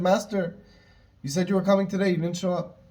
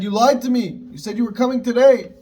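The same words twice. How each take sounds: First: Said in the usual way. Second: Higher and louder, an indignant accusation; accusing outburst. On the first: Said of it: "he was very upset". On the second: Retold or imitated. Sage confronting Mashiach over the broken promise, raised accusing voice. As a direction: hurl the betrayal back at him, raised and sharp. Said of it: "I don't know if he said in that tone".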